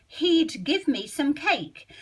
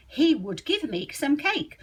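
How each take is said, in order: First: He'd said as one quick syllable; how you'd really say it, easy; natural contraction. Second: He would, both words said in full; full form, slow. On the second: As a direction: stiff and careful, like a book. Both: Shown as a demonstration. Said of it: "how would you say it".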